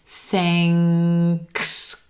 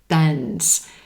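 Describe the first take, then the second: First: It has an ng sound followed by k. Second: It has a plain n sound and no k. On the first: The speaker calls it right. "the sound is ing, instead of n" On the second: The speaker calls it wrong. "students pronounce this word thens"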